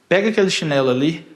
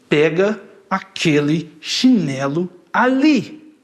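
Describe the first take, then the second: First: The words flow together at normal force. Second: Each syllable is separated and forced. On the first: It is a calm request. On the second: The person is angry and nervous.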